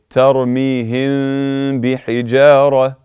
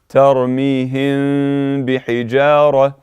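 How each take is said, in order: No difference in how they are said.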